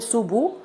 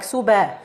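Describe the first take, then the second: First: The b is followed by a rounded u vowel. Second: The b is followed by an open a vowel. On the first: "You shouldn't circle the lips to form Dhamma" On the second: "open the mouth to, to add Fatha like Suba"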